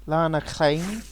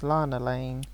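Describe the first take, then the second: First: The double L is given a Welsh pronunciation. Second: The double L is said as a plain English L. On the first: "If we're going to try and pronounce it in Welsh" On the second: "So it's Lana Lane"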